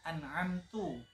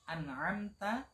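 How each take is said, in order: First: The word ends with an u vowel. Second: The word ends with an a vowel. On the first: The speaker calls it wrong. "dirubah menjadi dhammah" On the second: The speaker calls it right. "harokat fathah"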